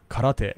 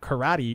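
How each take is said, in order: First: It is said with a Japanese pronunciation. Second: It is said with an English pronunciation. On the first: The speaker calls it right. "in Japanese, it's karate" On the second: The speaker calls it wrong. "it's not karate"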